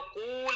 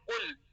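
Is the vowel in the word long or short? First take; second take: long; short. First: The vowel is drawn out long. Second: The vowel is kept short. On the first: The speaker calls it wrong. "कूल नहीं कह रहे थे" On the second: The speaker calls it right. "बल्कि क्या कह रहे थे, कुल"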